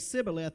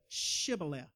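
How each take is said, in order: First: The word begins with a plain s sound. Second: The word begins with an sh sound. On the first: The speaker is an outsider who cannot say it. The speaker calls it wrong. "They could only say Shibboleth instead of" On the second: The speaker belongs to the group. The speaker calls it right. "instead of Shibboleth"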